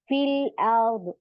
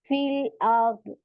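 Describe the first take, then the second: No difference in how they are said.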